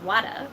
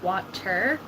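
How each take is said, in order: First: The middle consonant sounds like a soft D. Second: The middle consonant sounds like a clear T. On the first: "Instead of a T, it's a D" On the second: "I probably should be saying water"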